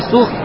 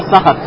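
First: The vowel after the first consonant is rounded. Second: The vowel after the first consonant is unrounded. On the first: "можно читать слово «ассухт» с даммой" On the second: "а можно «ассахат»"

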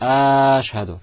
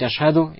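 First: A vowel is stretched out much too long. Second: The vowels are kept at their normal length. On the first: The speaker calls it wrong. "некоторые говорят... он тянет те буквы, которые тянуть не нужно" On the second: The speaker calls it right. "вместо того, чтобы говорить"

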